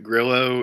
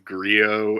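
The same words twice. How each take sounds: First: The double L is said as an L sound. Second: The double L is said as a Y sound. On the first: The speaker calls it wrong. "we've just been saying it wrong this whole time" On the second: The speaker calls it right. "it's actually a Spanish name and it's Grillo"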